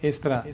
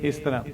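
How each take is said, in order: No difference in how they are said.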